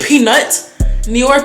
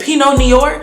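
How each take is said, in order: First: The T at the end of Pinot is sounded. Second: The T at the end of Pinot is silent. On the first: "Is it Peanut Noir" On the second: "is the T silent? Is it Pinot Noir?"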